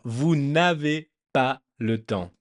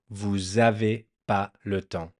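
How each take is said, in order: First: The n sound before avez is pronounced. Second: The n sound before avez is dropped. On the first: "If you want to pronounce it super correctly" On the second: "they lose this first N and then just say"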